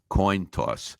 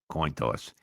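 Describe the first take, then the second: First: It is said louder and more clearly. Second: It is muttered quietly under the breath.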